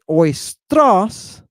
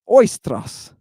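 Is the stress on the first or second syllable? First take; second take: second; first. First: The stress falls away from the circumflex syllable. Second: The stress falls on the circumflex syllable. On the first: The speaker calls it wrong. "we don't say oistros" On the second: The speaker calls it right. "we say oistros with the accent here, right? Where that little circumflex is"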